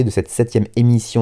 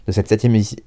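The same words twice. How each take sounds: First: Said in the usual way. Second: Tripping over the words, a little fast; stumbling start. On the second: Real, not acted. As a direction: trip and break off mid-word. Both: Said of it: "je bégaye".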